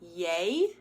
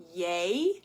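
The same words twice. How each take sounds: First: The vowel glides toward another sound. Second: The same.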